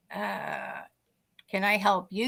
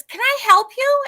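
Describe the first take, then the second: First: Low, hesitant acted comeback; lower, softer retold question after a drawn-out uh; puzzled reply. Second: High, loud, singsong offer of help; much higher, louder acted question; imitated chirpy stranger. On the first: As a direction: answer the stranger uncertainly, pitched down. Startled teller answers the stranger. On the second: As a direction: pipe up loudly as the intrusive stranger. Stranger at the car window.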